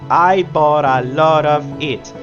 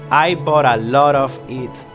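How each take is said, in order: The two takes are said the same way.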